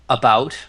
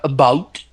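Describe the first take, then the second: First: Plain American accent, with no extra stress. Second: Canadian accent, with extra stress on 'out'. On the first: "instead of you know um" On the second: "It comes out about ... they stress the out"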